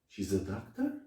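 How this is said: It is said as a surprised question. The speaker did not expect this to be true. "I'm really, really surprised"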